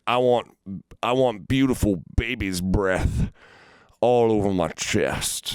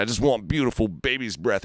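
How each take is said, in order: First: Slow, drawn-out mock creep, slightly raised; creepy customer. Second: Higher, pleading indignation; mock offended. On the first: Imitating a tattoo customer asking for baby's breath, slow and creepy. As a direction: lightly voice a creep savoring the words. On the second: Imitating the customer insisting on his tattoo, higher and offended. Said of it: "he's, like, getting all offended".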